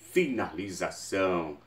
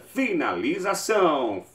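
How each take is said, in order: First: It is said in a deeper voice. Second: It is said in a higher voice.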